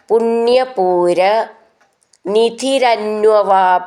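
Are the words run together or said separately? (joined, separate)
separate. The words are said separately with breaks between them.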